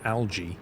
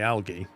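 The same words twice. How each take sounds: First: The g is soft, like a j sound. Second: The g is hard, as in 'go'. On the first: "I've never said algae. I never say it as a J" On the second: "But I say algae"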